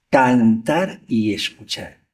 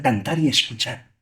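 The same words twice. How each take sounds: First: Slowed right down, each word weighed; slow emphatic repeat. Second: Said in the usual way. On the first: Shown as a demonstration. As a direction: drag it out to drive the point home.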